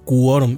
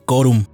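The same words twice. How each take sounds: First: The u after the q is pronounced. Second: The u after the q is silent. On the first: The speaker calls it right. "se debe pronunciar la U, ... se debe decir quórum" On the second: The speaker calls it wrong. "no se debe decir quórum"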